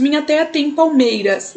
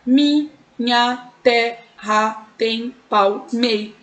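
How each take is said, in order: First: Said in the usual way. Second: Very slow "Minha terra tem palmei-", syllable by syllable; counting syllables. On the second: Shown as a demonstration. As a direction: separate each syllable with a pause: mi, nha, te, rra, tem, pal, mei. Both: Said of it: "vamos contar".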